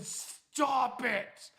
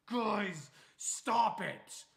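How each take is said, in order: First: Higher and much louder, insistent; yelled warning. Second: Annoyed warning. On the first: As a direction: shout it like they're burning his feet. Friend repeating warning, paranoid. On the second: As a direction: warn them off, raised voice. Sleepy friend warning them off. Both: Retold or imitated.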